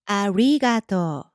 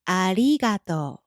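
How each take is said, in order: First: The middle r sounds like an English r. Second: The middle r is a light Japanese tap. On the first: The speaker calls it wrong. "It's not" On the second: The speaker calls it right.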